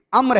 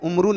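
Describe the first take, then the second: First: The name ends on a consonant, without vowel. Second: The name ends with a sounded 'oo' vowel. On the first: The speaker calls it right. "वाव silent है, वाव की आवाज नहीं आएगी" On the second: The speaker calls it wrong. "उमरू नहीं है"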